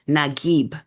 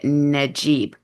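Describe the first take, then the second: First: The middle consonant is a hard g sound. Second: The middle consonant is a soft j sound. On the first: The speaker calls it right. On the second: The speaker calls it wrong.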